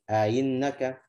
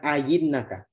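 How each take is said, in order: First: The second hamzah is eased, between hamzah and i. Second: The second hamzah becomes a full y sound. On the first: The speaker calls it right. "Dia baca dengan ainnaka" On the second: The speaker calls it wrong. "bukan ainnaka ya, bukan dengan ya"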